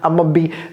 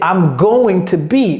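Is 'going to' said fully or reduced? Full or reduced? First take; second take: reduced; full. First: Going to is squeezed into a short 'a'. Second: Going to is said fully as two words. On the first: "on dit ama" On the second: "Donc c'est I'm going to be"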